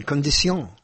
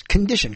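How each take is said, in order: First: Condition said the French way, "kon-dee-SYON"; French pronunciation of condition. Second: Said in the usual way. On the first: Shown as a demonstration. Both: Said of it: "put different emphasis".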